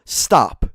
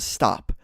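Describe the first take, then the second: First: Firm, louder stop; a dad's sharp stop, mildly yelled; retold yell. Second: Said in the usual way. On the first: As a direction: bark the one word stop. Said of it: "we just hear the dad yell". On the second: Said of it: "Like, just says".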